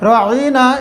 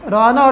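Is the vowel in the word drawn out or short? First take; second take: drawn out; short. First: The vowel is drawn out and lengthened. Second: The vowel is said short, without drawing out. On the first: It means our shepherd. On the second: It means a fool.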